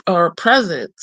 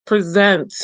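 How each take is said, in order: First: "present" said as the noun, stress on the first syllable, PREZ-ent; "present" as PREZ-unt, accent on the front; noun pronunciation. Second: "Present" said as the verb, stress on the second syllable, pre-ZENT; "Present" as pree-ZENT, accent on the end; verb pronunciation. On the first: Correcting the card title, "present" as PREZ-ent. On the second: Reading the oracle card title, first "Present" with stress on ZENT. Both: Shown as a demonstration.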